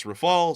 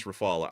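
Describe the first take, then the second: First: Rafale as ruh-FAHL, two syllables; English pronunciation. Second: Rafale as ruh-FAH-luh, three syllables; alternative pronunciation. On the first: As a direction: end Rafale on the L, no final vowel. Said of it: "Some people are saying it's". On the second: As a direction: add a soft uh after the L in Rafale. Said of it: "some people are saying it's". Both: Shown as a demonstration.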